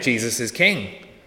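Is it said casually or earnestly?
earnestly. It is said in a weighty, earnest way.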